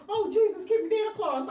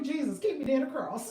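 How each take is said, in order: First: A light, louder mock of an old church lady; imitating mother-in-law. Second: Laughing prayer. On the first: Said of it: "That's what my mother-in-law says". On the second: Retold or imitated. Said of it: "can a witch use that too".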